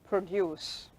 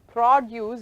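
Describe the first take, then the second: First: It is said with the verb pronunciation. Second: It is said with the noun pronunciation. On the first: The word names an action. "That is a verb. Produce" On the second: The word names a thing. "Produce is noun"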